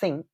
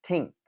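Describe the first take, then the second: First: The word begins with a th sound. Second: The word begins with a t sound. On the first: "Instead of saying think" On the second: "or a t, a t sound"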